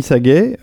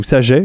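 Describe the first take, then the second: First: Saget with a hard g, sa-GHEH. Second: Saget with a soft g, sa-ZHEH. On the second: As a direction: say Saget as sa-zhay, g like the s in "measure". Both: Shown as a demonstration. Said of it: "je sais pas comment on dit".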